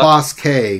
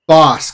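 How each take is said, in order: First: The name is said as two syllables. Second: The name is said as one syllable. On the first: The speaker calls it wrong. "What is wrong with you?" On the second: The speaker calls it right. "Bosk, not"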